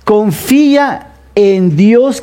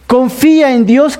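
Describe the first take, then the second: First: Slow, deliberate reading of the verse; slow, weighty scripture reading; read slowly. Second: Said in the usual way. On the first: Shown as a demonstration. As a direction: draw each word out for the congregation. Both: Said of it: "y lo voy a leer despacio".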